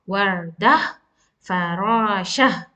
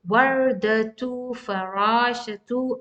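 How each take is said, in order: First: Each word ends with an 'ah' sound. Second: Each word ends with a 'tu' sound. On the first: The reading stops on the word. "I will stop on this Tamar Bhuta as ah sound" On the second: The reading continues without stopping. "If I'm continue reading, ... I will pronounce the Tamar Bhuta"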